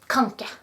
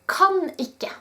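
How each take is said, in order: First: The two words are run together quickly. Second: The two words are said fully and separately. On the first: "they just say it really fast" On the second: "slang for kan ikke"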